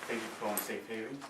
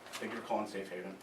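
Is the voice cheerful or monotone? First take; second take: cheerful; monotone. First: It is said warmly, with a smile. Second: It is said flatly, without any warmth. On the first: The caller feels welcome and reached the right place. The speaker calls it right. "you're going to want to smile" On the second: The speaker does not really care. The speaker calls it wrong. "if you're monotone and you just don't really care"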